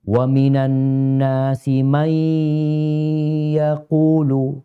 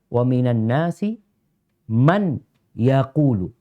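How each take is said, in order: First: The n blends nasally into the following y. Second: The n is pronounced clearly before the y. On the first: "itu pakai tajwid" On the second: "Man dia baca izhar"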